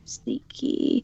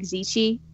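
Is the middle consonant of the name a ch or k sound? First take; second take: k; ch. First: The middle consonant is a hard k sound. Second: The middle consonant is a ch sound. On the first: The speaker calls it wrong. "we're saying that wrong" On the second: The speaker calls it right. "Isn't it like Zichi?"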